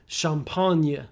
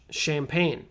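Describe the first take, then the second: First: It is said with a French pronunciation. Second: It is said with an American English pronunciation. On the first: "I know in French it should be champagne" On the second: "That's how we say it in American English"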